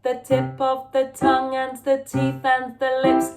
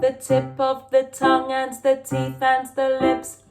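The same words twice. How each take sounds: Both takes have the same delivery.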